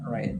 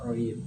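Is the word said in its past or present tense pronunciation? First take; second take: past; present. First: It is said with the past-tense pronunciation. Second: It is said with the present-tense pronunciation. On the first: The action already happened. "tapi kalau past tense saya dibaca read" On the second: The action happens now or habitually. "kalau present tense saya dibaca read"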